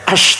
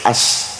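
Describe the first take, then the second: First: The consonant is a hushing 'sh' sound. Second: The consonant is a hissing 's' sound. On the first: "kalau asyhadu kan pakai shin" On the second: "Bilal itu kalau adzan nggak pakai ash tapi as"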